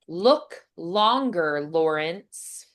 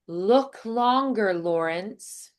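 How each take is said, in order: First: The words are said separately with little flow. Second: The words run together with more flow.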